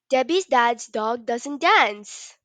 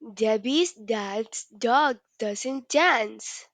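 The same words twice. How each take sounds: First: It is said at a very fast pace. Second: It is said at a slow pace.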